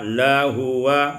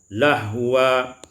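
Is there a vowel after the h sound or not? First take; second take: vowel; no vowel. First: A vowel is sounded after the h. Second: The h is said without a following vowel.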